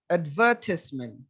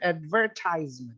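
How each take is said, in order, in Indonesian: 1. Ini diucapkan dengan cara Inggris. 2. Ini diucapkan dengan cara Amerika. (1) "Dia advertis" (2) "tapi kalau di American"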